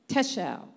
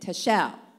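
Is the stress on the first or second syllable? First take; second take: first; second. First: The stress is on the first syllable. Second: The stress is on the second syllable. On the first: "the main emphasis is on that section" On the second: "If it was on the E-L"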